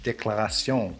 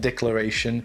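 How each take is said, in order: First: The word is pronounced the French way. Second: The word is pronounced the English way. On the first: The speaker calls it right. "it's in French. It's Déclaration" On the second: The speaker calls it wrong. "It's not declaration"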